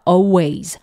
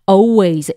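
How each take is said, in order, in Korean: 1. L 소리는 묵음이에요. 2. L 소리는 묵음이에요.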